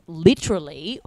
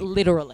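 First: It is said in an Australian accent. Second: It is said in an American accent.

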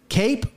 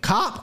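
First: The name rhymes with 'tape'. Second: The name rhymes with 'top'. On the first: The speaker calls it wrong. "I always mispronounce the name" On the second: The speaker calls it right. "It's Cop, like cop. The police"

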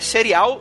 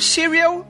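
First: The name is said with a Portuguese accent. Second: The name is said with an English accent. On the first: "Ou mais pra você que é portuguesado" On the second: "Eu tô lendo com essa pronúncia de inglês nórdico que eu tenho"

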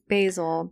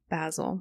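First: Basil is pronounced the American way. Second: Basil is pronounced the British way. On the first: "We're in America, so we say basil" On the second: "what does Gordon Ramsay say?"

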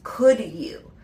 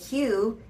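First: Both words are said fully and with emphasis. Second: The two words blend into one short syllable. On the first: It is a pleased answer accepting an offer. "instead of saying Q, it actually becomes could you" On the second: It is asking someone to do something. "when you're asking it as a question, it is reduced to Q"

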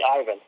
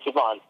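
First: The name has an English pronunciation. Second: The name has a Russian pronunciation. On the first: "In North American way, or in English, like you can say Ivan" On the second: "In Russian, it's Ivan"

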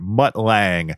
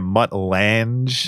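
First: The surname is said the standard way. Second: The surname is said the altered way. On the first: The speaker calls it right. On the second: The speaker calls it wrong.

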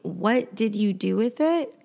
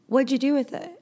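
First: Each word is said clearly and in full. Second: The words are shortened and run together. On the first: "instead of saying" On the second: "Native speakers will say"

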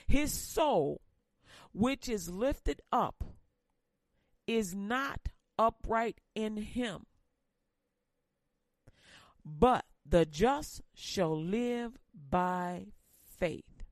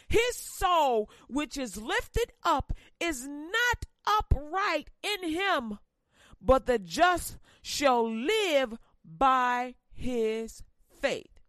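First: It is read quietly. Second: It is read loudly.

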